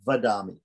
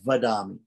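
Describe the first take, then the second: The two takes are said the same way.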